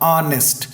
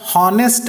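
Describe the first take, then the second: First: The word begins with a vowel sound. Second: The word begins with an h sound. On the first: The speaker calls it right. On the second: The speaker calls it wrong. "ಹಾನೆಸ್ಟ್ ಅಂತ ಅನ್ನೋದಲ್ಲ"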